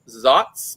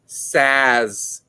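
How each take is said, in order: First: It starts with z and ends with ts. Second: It starts with s and ends with z. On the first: The speaker calls it right. "It is Zatz because it's a German hop" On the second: The speaker calls it wrong. "It looks like Saz. It is not Saz"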